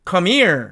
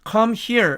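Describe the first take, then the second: First: The h is dropped and the words run together. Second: Each word is said separately with a clear h. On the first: "H가 거의 탈락되기 때문에" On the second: "하나씩 읽으면 당연히 come here 이렇게 되겠죠"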